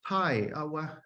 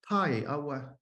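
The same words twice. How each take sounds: First: The high tone falls in pitch. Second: The high tone falls in pitch.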